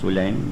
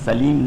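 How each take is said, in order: First: The name begins with 'su' and ends 'laim'. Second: The name begins with 'sa' and ends 'leem'. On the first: The speaker calls it right. "बल्कि ये नाम है सुलैम बिन कैस" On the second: The speaker calls it wrong. "सलीम नहीं है"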